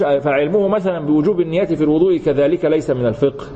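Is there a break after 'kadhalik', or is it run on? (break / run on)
run on. Kadhalik runs straight on into the next phrase. This knowledge too is not jurisprudence. The speaker calls it wrong. "فانت ما بنقولش"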